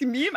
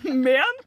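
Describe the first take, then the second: First: It is said the English way, rhyming with cream. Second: It is said the Norwegian way, rhyming with krem. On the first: "På engelsk meme er liksom cream" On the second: "på norsk uttaler man men, det skal være liksom krem"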